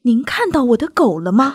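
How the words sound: It sounds stiff and overly deliberate.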